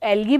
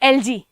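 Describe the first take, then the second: First: The middle consonant is a hard g sound. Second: The middle consonant is a soft j sound. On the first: This is how science students say it. "हम जो science के student है बेटा, हम लोग एलगी बोलते हैं" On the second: This is how it is said in some places. "कुछ जगह हम लोग क्या उसको बोलते हैं"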